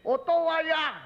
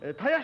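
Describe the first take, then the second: First: The first 'o' sound is clearly pronounced. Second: The first 'o' sound is swallowed and dropped. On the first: "あれあんまりはっきり言いませんですね、おとわやなんてなこと言わない" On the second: "おの字はほとんど飲んじゃうんですな、たやしか言わないでしょ"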